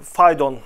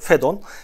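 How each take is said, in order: First: The first vowel is pronounced like 'ay'. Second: The first vowel is pronounced like 'e'. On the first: The speaker calls it wrong. "böyle telaffuz edilse de" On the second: The speaker calls it right. "Fedon diye de telaffuz edebiliriz"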